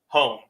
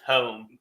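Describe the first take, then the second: First: The vowel is short and plain. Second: The vowel is drawn out and stretched. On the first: "you would just have one" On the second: "It's like two or three O's"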